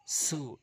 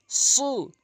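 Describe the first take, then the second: First: Said in the usual way. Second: সু with emphatic s, high pitch; thick, raised সু; rounded heavy সু. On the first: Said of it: "সিনটি মুখ ওসার হবে". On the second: Shown as a demonstration. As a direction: round the lips hard on সু. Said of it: "সতে মুখ গোলাকার হবে".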